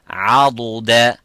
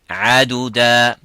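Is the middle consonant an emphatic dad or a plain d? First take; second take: emphatic dad; plain d. First: The middle consonant is a heavy emphatic dad. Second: The middle consonant is a plain light d. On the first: The speaker calls it right. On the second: The speaker calls it wrong. "and not"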